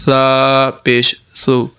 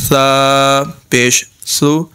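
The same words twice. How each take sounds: The two takes are said the same way.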